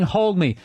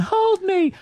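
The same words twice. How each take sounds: First: Said in the usual way. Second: Very high mock-child plea; whining toddler. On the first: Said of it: "literally saying". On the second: Toddler begging mother to hold him, high mock whine. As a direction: imitate a scared little kid. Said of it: "he's going".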